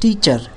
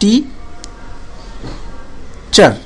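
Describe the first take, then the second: First: The two syllables are said without a break. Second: The two syllables are said with a break.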